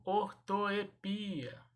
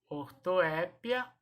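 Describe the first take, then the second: First: "ortoepia" said or-to-e-PI-a; drawn-out stressed PI in "ortoepia". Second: "ortoépia" said or-to-É-pia; stress on É. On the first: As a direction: slowly model "ortoepia", stressing PI. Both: Shown as a demonstration. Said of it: "eu posso falar das duas maneiras".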